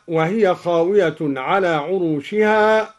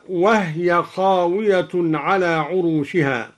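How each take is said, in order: First: Said in the usual way. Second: وهي said "wah-ya", no vowel on the h; silent ha in وهي. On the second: Shown as a demonstration. Teacher demonstrating al-Duri's reading, وهي with vowelless h. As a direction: close the first syllable of وهي on the h. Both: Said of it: "قرأ الدوري بإسكان الهاء هكذا".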